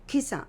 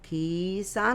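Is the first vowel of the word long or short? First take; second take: short; long. First: The first vowel is said quickly and short. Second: The first vowel is drawn out long. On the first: The speaker calls it right. "तिचा उच्चार पटकन झाला पाहिजे" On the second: The speaker calls it wrong. "खिसा खिसा नाही बोलणार"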